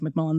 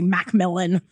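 First: The name is said as one smooth word. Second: There is a short gap inside the name. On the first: "it's easier to say like Macmillan" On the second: "Like with a space in between"

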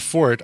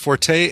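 First: The word is said with one syllable. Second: The word is said with two syllables. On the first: This is the fencing pronunciation. "Both forte and fort are allowable pronunciations" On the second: This is the musical pronunciation. "In music it is forte"

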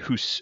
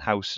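First: It is said with a Northumbrian 'oo' vowel. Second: It is said with a standard 'ow' vowel.

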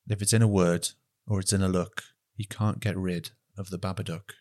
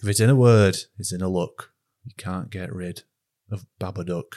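First: It is said in his usual accent. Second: It is said in a northern English accent.

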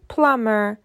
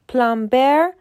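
First: The b sound is silent. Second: The b sound is clearly pronounced. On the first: The speaker calls it right. "تلفظ صحیح پلامبر" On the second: The speaker calls it wrong. "پلامبر غلطه"

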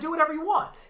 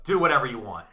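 First: It is said in a relaxed, friendly way. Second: It is said in a flat, curt way. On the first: The permission is given warmly and casually. The speaker calls it right. "that's not how I said it in my head. I was like, yeah, man" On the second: The permission sounds dismissive or annoyed. The speaker calls it wrong. "But I wrote"

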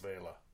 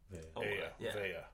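First: The middle consonant sounds like an L. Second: The middle consonant sounds like a Y. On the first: This is how the name is said if spelled with a single L. "one L's Vela" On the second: This is how the name is said if spelled with a double L. "two L's together would be Vela"

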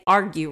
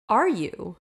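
First: The word is said with a g sound. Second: The word is said without a g sound. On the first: The speaker calls it right. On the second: The speaker calls it wrong.

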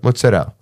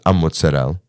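First: No extra vowel sound comes before the word. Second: An extra vowel sound comes before the word. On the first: "we drop the A in front" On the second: "Mozzarella becomes a mozzarella"

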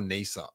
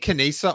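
First: The name begins without any K sound. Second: The name begins with a sounded K. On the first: "I say Nisa" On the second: "I'm sticking with the K"

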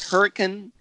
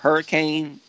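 First: It is said with a British English pronunciation. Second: It is said with an American English pronunciation. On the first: This is how people in England say it. "the people in England, they call it" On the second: This is how the speakers themselves say it. "instead of"

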